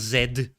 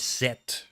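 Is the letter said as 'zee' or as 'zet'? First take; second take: zee; zet. First: The letter is said like 'zee'. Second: The letter is said like 'zet'. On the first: The speaker calls it wrong. "It's not Z" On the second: The speaker calls it right. "It's set"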